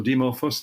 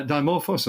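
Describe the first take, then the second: First: Dimorphos said DIH-mor-fos, short I, stress on MOR. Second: Dimorphos said DYE-mor-fos, long I, stress first. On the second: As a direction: Dimorphos with a long "eye" start, DYE-morphos. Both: Shown as a demonstration. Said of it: "depending on how you pronounce it".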